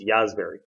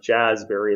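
First: The word begins with a Y sound. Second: The word begins with a J sound. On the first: The speaker calls it right. "it's pronounced yazberry" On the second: The speaker calls it wrong. "it's not jazzberry"

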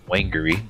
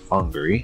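First: The name is sounded out letter by letter. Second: The name is said the local way. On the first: The speaker calls it wrong. "looks like Whangarei" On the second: The speaker calls it right. "it is pronounced Whangarei"

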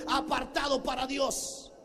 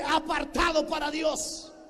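First: The phrase is said at normal volume. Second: The phrase is said loudly.

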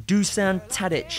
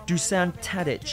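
Both takes have the same delivery.

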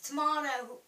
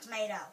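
First: Tomato is said with a British accent. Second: Tomato is said with an American accent.

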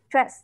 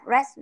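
First: The consonants before the r are kept. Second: The consonants before the r are dropped. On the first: The speaker calls it right. "mọi người có thể nghe [name] đọc giống như là stress" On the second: The speaker calls it wrong. "mình bỏ âm d đi và mình chỉ đọc âm r thôi"

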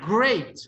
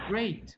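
First: The word is said loudly with strong resonance. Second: The word is said a little stronger, still soft. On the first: "Nivel 4" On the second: "nivel 2 sería great"

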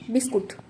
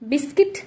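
First: The word ends with a 'kut' sound. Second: The word ends with a 'kit' sound. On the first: "বলি বিস্কুট" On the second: "বিস্কিট নয়"

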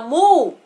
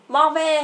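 First: The word is said as one syllable. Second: The word is split into two syllables. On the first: The speaker calls it right. "Chữ này đọc là move" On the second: The speaker calls it wrong. "Chữ đó con đọc là chữ mo hả? Mo ve hả?"

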